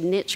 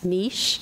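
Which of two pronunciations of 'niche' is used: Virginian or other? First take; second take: Virginian; other. First: It is said the way the speaker grew up saying it. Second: It is said the other way, as a colleague says it. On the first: This is the pronunciation from where the speaker grew up. "because I'm from Virginia. We said niche growing up" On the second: This is the pronunciation the speaker now prefers. "Amanda Vogel says niche"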